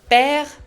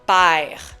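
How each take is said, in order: First: It is said in a standard French accent. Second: It is said in a Quebec French accent.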